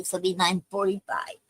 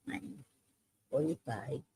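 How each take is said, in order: First: Said in the usual way. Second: Murmured to herself. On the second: Real, not acted. Repeating the end time to herself.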